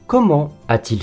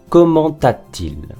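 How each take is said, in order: First: Comment is said without a linking t sound. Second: Comment is linked with a t sound. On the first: The speaker calls it right. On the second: The speaker calls it wrong.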